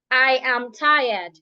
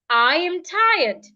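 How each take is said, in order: First: The pitch stays flat on one level. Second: The pitch moves up and down. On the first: The speaker calls it wrong. "You don't say" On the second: The speaker calls it right.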